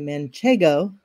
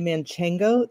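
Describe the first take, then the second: First: No extra n sound comes before the g. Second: An extra n sound comes before the g. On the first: The speaker calls it right. "be super smart and say manchego" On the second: The speaker calls it wrong. "That's not how you say it"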